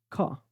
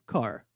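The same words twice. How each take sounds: First: It has a British accent with a silent R. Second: It has an American accent with an articulated R.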